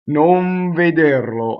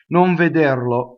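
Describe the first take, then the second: First: The N is held long before the V. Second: The N passes quickly at normal speed. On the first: The speaker calls it wrong. "Now I exaggerated, right? So I vo- I stayed on that too long" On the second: The speaker calls it right. "here's it going by in normal speed"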